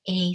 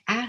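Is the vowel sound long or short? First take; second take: long; short. First: The vowel is said as a long a. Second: The vowel is said as a short a. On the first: "can also represent a long sound" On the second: "the letter A representing the A sound"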